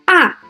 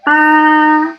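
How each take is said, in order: First: The pitch falls sharply from high to low. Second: The pitch stays high and level. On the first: "The fourth tone is a high falling tone" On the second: "horizontal, like this"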